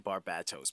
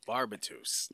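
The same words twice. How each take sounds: First: The stress is on the middle syllable. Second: The stress is not on the middle syllable. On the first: The speaker calls it right. "the emphasis is on the bat" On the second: The speaker calls it wrong. "Not a fan of that pronunciation"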